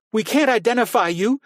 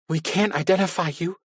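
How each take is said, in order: First: High, loud shouted protest; exploding shout. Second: High, pleading with a catch. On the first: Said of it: "Carrie seethed and exploded". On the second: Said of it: "Carrie's sobbing overtook her". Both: A narrator's reading.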